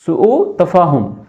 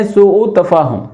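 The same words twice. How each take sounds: First: سوء تفاہم said slowly, each syllable spelled out; slow clear model word. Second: Said in the usual way. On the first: Shown as a demonstration. Teacher repeating سوء تفاہم slowly for the class. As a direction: drill سوء تفاہم slowly and distinctly for students. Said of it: "سوء تفاہم یعنی کہ بدمزگی".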